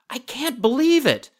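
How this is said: It is said in a surprised tone.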